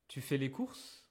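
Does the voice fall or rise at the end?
rises. The voice rises at the end. It is a question.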